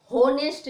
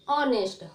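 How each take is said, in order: First: होनेस्ट with a sounded h, said louder as the mistake; wrong honest. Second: ऑनेस्ट starting straight on the vowel ऑ, no h; silent h honest. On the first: Teacher warns students against the wrong honest. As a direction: stress the h in होनेस्ट to show the error. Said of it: "होनेस्ट बोलोगे तो गलत हो जाएगा". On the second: Teacher gives students the right way to say honest. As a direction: say ऑनेस्ट the correct way, no h. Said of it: "होनेस्ट नहीं". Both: Shown as a demonstration.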